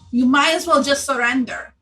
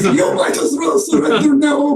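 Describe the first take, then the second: First: It is said in a normal voice. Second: It is said in a put-on bear voice.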